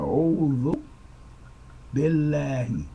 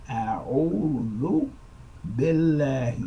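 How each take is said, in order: Both takes have the same delivery.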